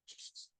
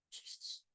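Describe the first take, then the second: No difference in how they are said.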